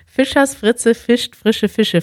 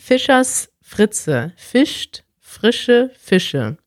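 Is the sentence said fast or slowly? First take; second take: fast; slowly. First: The sentence is said fast. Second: The sentence is said slowly.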